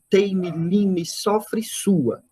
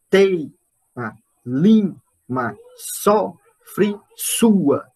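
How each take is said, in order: First: Said in the usual way. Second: Each word set apart by long pauses, teima, lima, sofre, sua; scanned verse. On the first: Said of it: "É um, é um decassílabo". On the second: Shown as a demonstration. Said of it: "Dá dez sílabas".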